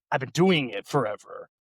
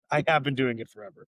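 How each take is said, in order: First: Said in the usual way. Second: "have" said in full and stressed, falling at the end; emphatic, unshortened "have". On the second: Real, not acted. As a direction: lean on "have" to insist on it. Concedes quality, insists on the fact.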